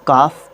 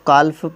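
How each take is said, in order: First: The L sound is silent. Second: The L sound is clearly pronounced. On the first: The speaker calls it right. "काफ pronounce करते हैं" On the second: The speaker calls it wrong. "इसको काल्फ pronounce नहीं करते हैं"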